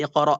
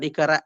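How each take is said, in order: First: "iqra" with full, heavy consonants; heavy reading. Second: "ikra" with thin k and open "ra"; "ikra" as the mistaken thin reading; wrong light reading. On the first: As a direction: round "iqra" towards "iqoro". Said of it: "tapi iqra". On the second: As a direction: keep "ikra" light, vowel unrounded. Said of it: "bukan ikra". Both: Shown as a demonstration.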